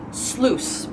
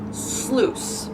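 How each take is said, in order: First: The i in the word is silent. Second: The same.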